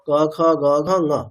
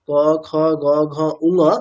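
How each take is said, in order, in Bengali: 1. শেষ নাসিক্য ধ্বনিটি শুধু বলা হয়, কোনো স্বর নেই। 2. শেষ নাসিক্য ধ্বনিতে উ-কার যোগ করা হয়। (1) "এতটুকুই, কোন রকম উকার জুড়ে দিয়ে না" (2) "গোটা অক্ষর ক খ গ ঘ উঙ এরকম বলবেন না"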